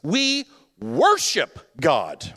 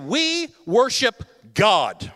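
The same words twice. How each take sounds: First: The stress falls on the word worship. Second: The stress falls on the word God. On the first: God is to be treated as God, nothing less. "listen to the emphasis" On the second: God alone is the focus of worship. "listen to the emphasis"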